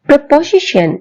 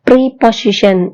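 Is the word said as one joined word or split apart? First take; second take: joined; split apart. First: The word is said as one joined word. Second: The word is said split into two parts. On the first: The speaker calls it right. "இவை இரண்டையும் சேர்த்து நாம் ஒரு சொல்லாக preposition என்றுவாறுதான் உச்சரிக்க வேண்டும்" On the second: The speaker calls it wrong. "சொல்ல கூடாது"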